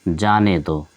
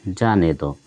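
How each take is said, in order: The two takes are said the same way.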